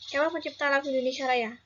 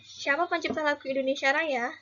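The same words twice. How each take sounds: First: It is said with flat statement intonation. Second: It is said with question intonation.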